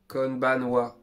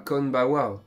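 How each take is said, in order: First: An n sound is heard before wa. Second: The n sound before wa is left out. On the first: The speaker calls it right. "C'est un petit peu compliqué" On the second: The speaker calls it wrong. "mais pas Konbawa"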